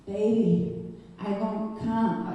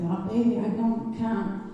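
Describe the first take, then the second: First: Said in the usual way. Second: Put-on Italian accent. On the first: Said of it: "Oh, he's Italian". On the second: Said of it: "That's the accent".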